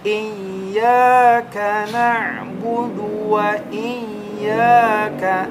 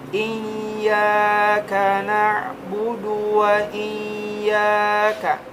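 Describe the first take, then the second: First: The long vowels swing up and down in pitch. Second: The long vowels are held at a level pitch. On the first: The speaker calls it right. "Diayun jadi seperti ini" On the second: The speaker calls it wrong. "Jangan diluruskan seperti ini"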